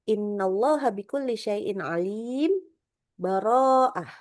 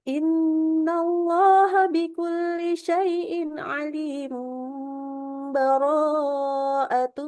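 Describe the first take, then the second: First: It makes a full stop with a breath after alim. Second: It runs straight on after alim without stopping. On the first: "kalau yang kita wakaf ya standar ya" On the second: "Kalau saya mewasalkan juga boleh. Ini cara ketiga"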